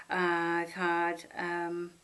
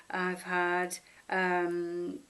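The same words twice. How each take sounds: The two takes are said the same way.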